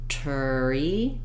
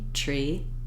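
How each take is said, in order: First: A short vowel separates the T and the R. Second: The T and the R blend with no vowel. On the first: The speaker calls it wrong. "That will end up with that turi sound" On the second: The speaker calls it right. "making less and less space between the T and the R sounds"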